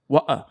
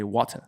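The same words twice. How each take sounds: First: Lower-class British "water", T swallowed. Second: Royal British "water" with a clear T, no final R. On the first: Contrasting it with the queen, lower-class British "water". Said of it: "lower class is gonna be like". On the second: Demonstrating how the queen says it, royal British "water". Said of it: "the king or the queen of England". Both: Shown as a demonstration.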